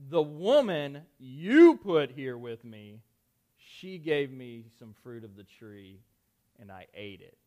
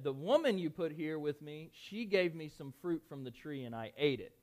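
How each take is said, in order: First: It is said as Adam, shifting blame accusingly. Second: It is read in a plain, neutral tone.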